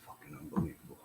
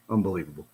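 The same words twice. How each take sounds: First: Breathy disgusted whisper, much softer; a muttered aside, barely voiced and much softer; whispered disbelief. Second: A bitter laugh into the word, softer; rueful chuckle over Unbelievable; laughing disbelief. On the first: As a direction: hiss it under your breath in disbelief. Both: Real, not acted.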